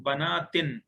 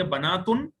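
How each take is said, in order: First: بناتن ending in -tin; second plural ending. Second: بناتن ending in -tun; first plural ending. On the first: Teacher to students, other ending banātin. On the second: Teacher to students, plural said banātun. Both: Shown as a demonstration. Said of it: "یا پھر".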